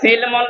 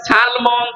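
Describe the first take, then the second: First: The first vowel is an 'i' sound. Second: The first vowel is an 'a' sound. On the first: "কেন সিলমন দিলাম?" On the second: "সিন যদি জবর দিয়ে পড়েন"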